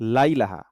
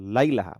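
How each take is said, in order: No difference in how they are said.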